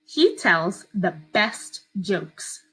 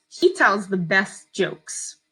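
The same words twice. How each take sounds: First: Very slow, even dictation; dictating. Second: Slow, clear dictation; dictating. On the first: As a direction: read it slowly for children to write. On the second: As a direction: read it out slowly for spelling. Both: Shown as a demonstration. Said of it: "I'm gonna read it to you twice".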